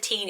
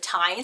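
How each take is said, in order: First: The ending rhymes with 'mean'. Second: The ending rhymes with 'mine'. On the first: The speaker calls it wrong. "which is not the teen" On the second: The speaker calls it right. "it's the tine"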